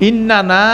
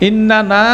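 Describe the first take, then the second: Both takes have the same delivery.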